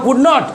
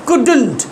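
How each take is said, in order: First: It is said as two separate full words. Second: It is said joined together as one contracted word. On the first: "কেউ বলতে পারো কুড নট" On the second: "একসঙ্গে উচ্চারণে বলতে পারো কুডন্ট"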